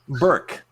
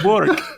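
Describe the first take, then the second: First: The name is said with an 'ur' vowel. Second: The name is said with an 'or' vowel. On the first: The speaker calls it right. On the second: The speaker calls it wrong.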